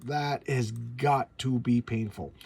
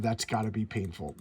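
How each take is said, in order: First: "That has got to be painful" slowly, each word spelled out; slow emphatic repeat. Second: Said in the usual way. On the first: Real, not acted. Fan wincing at the hero's pain, slow emphatic. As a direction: lean hard on "has got to", drawn out.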